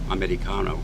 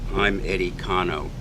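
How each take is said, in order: First: The name is run together very fast. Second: The name is said at a normal, separated pace.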